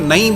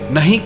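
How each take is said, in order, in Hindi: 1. शब्द संक्षिप्त और लापरवाही से बोला जाता है। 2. शब्द पूरा और सावधानी से बोला जाता है।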